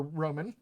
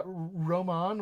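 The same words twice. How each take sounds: First: "Roman" as ROH-mən, first syllable stressed; Anglicised name. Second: "Roman" as roh-MAHN, stretched second syllable; foreign-style name. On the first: Coach weighing a viewer's name, Roman as ROH-mən. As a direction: say "Roman" English-style with a weak ending. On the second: Coach weighing a viewer's name, Roman as roh-MAHN. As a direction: slowly say "Roman" with an open final AH. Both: Shown as a demonstration. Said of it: "not sure which one it is".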